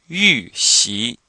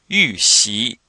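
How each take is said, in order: Both takes have the same delivery.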